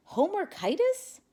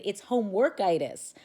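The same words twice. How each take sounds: First: High, rising puzzled echo. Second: Homeworkitis said firmly, falling; firm repeat. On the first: Boy echoing the vet's diagnosis, high and puzzled. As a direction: repeat the odd word in disbelief. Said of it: "A puzzled Stevie responded". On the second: Vet correcting the boy, firm and falling. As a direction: set the word straight, louder. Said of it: "the doctor replied and repeated". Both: A narrator's reading.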